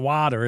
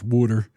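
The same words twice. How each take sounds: First: It is said in a standard American accent. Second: It is said in a Philadelphia accent.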